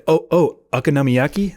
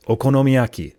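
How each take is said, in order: First: Okonomiyaki Americanized as "uck-a-NAH-mee-yacky", rising; higher, questioning American take on okonomiyaki; American pronunciation. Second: Okonomiyaki said the Japanese way, pure "oh" vowels; Japanese pronunciation. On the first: Acted. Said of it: "how Americans say it". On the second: Shown as a demonstration. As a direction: say Okonomiyaki with even Japanese syllables, falling at the end. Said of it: "only learned it in Japanese".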